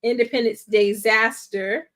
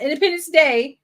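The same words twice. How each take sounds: First: "Independence Disaster" with "DAY-zaster" clearly marked; emphasized title pun. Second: "Independence Day" higher, with "Day" ending cleanly; contrastive correction. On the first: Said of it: "Not Independence Day". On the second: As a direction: rule out "Independence Day" with a raised, contrasting delivery. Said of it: "Independence Disaster". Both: Real, not acted.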